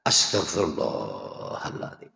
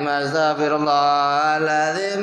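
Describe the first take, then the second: First: It is said slowly with deep, heartfelt emotion. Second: It is said quickly and mechanically, without feeling.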